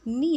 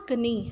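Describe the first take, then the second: First: नी starting directly on N; नी, the K left silent. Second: कनी with an extra K syllable in front; mispronounced कनी, K voiced before the N; K pronounced. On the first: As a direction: say नी as one syllable with no K. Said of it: "क्योंकि के silent है". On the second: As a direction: say कनी, wrongly sounding the silent K. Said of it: "हम इसको कनी नहीं पढ़ते". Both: Shown as a demonstration.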